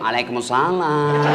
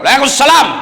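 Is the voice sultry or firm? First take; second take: sultry; firm. First: It is said in a soft, sultry, drawn-out voice. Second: It is said in a short, firm, curt voice.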